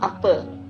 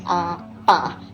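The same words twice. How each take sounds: First: The final vowel is said the Peninsular way. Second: The final vowel is said the Sarawak way. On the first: This is how Peninsular Malaysians say it. "not apa. Uh, so the apa is the Semenanjung slang" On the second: This is how Sarawak people say it. "kita pronounce as apa"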